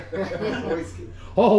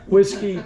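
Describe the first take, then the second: First: Laughing. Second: Said in the usual way. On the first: Real, not acted. Salesman repeating the crowd's pick, laughing. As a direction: laugh through the word whiskey. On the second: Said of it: "Bourbon, scotch".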